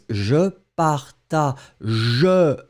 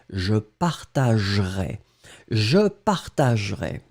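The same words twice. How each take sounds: First: "je partagerai" spelled out slowly, every syllable with its E; E fully sounded. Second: "je partagerai" said as "je partag'rai", no E; "partagerai" clipped to three syllables, E swallowed; E dropped. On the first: Teacher showing the written form to the class, slow and careful. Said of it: "we don't emphasize on the E". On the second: Teacher modelling the real pronunciation to students, unstressed E dropped. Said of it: "so you will pronounce it". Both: Shown as a demonstration.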